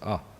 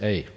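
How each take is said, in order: First: It is said as 'ah', Indian style. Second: It is said as 'ay', Australian style.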